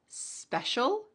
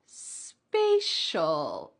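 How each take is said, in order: First: "Special" with a short E, spesh-ul. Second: "spatial" with a long A, spay-shul. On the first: Teacher modeling "Special" with a short E for learners. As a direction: say "Special" with a clipped short E vowel. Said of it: "at the beginning of the first word". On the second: Teacher contrasting "spatial" with its long A sound. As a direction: stretch "spatial" with a long A like in day. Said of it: "we have an A sound". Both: Shown as a demonstration.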